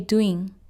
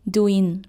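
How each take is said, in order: First: The word ends in a clean ng sound. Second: The word does not end in a clean ng. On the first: The speaker calls it right. "You say doing" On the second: The speaker calls it wrong. "You don't say doing"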